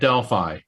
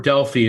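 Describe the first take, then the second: First: The name has a plain English pronunciation. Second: The name has a Greek-style pronunciation.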